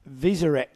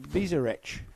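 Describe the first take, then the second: First: The name ends with a hard k sound. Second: The name ends with a ch sound.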